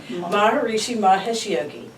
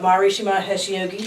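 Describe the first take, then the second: First: The name is said more slowly. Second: The name is said at a normal pace.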